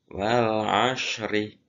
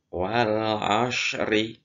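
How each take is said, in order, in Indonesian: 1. Bunyi s tebal dan berat. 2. Bunyi s tebal dan berat.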